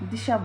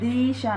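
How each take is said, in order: First: The first vowel is clipped short. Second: The first vowel is drawn out long. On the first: The speaker calls it right. "दिशा बोल रहे हैं, तो द को छोटी की मात्रा" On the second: The speaker calls it wrong. "दिशा नहीं बोल रहे"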